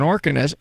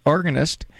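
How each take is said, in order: First: "organist" slurred, the g nearly lost; slurred mispronunciation. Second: Said in the usual way. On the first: Real, not acted. Host telling caller about Lenny D, fluffing "organist". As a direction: stumble on "organist", swallowing the g and final t. Slip, then corrects the word.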